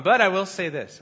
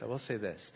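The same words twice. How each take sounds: First: Louder and higher, pressing the point; emphatic. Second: Much softer and lower, drawn inward; quiet echo. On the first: Preacher firmly announcing his point to the congregation. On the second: Preacher softly echoing his own point to the congregation. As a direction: repeat it under your breath for weight. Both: Shown as a demonstration.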